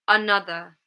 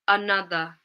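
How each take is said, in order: No difference in how they are said.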